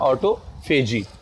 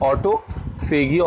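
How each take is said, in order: First: The ending has a soft j sound. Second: The ending has a hard g sound.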